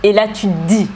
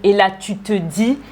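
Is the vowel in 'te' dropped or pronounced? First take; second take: dropped; pronounced. First: The vowel in 'te' is dropped. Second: The vowel in 'te' is fully pronounced. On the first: "On a enlevé le « e » du « te »" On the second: "Au lieu de dire"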